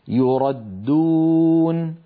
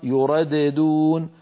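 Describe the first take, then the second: First: The dal is one merged, doubled sound. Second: The first dal bounces, splitting into two dals. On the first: The speaker calls it right. "يردون الدال المشددة" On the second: The speaker calls it wrong. "لو نطقنا الدال الأولى مقلقلة لصارت يرددون"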